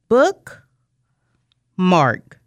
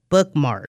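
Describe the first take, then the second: First: The two parts are said with a break. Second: The two parts are said without a break. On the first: The parts are heard as two separate words. "Say it with me" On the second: The parts are blended into one word. "Blend them together"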